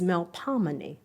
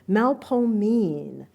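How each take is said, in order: First: It has four syllables with a short O. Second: It has three syllables with a long O. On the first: This is the standard pronunciation. "the conventional and standardized pronunciation" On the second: This is the local pronunciation. "New Orleanians pronounce it with a long O sound as in old"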